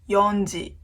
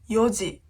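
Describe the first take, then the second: First: It is said with an n sound before ji. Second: It is said without an n sound before ji. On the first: The speaker calls it wrong. "It's not よんじ" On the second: The speaker calls it right. "four o'clock is よじ"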